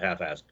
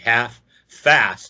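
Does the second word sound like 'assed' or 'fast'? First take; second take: assed; fast. First: The f sound merges, so the second word sounds like 'assed'. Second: The second word clearly starts with an f sound. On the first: This is how locals say it, as a joke. "which everybody in New Orleans, of course, pronounces" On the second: This is the official name as written. "with an S"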